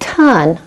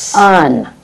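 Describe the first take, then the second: First: The word begins with a T sound. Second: The word begins with a hissing S sound. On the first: The speaker calls it wrong. "I don't want ton" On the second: The speaker calls it right. "I want un"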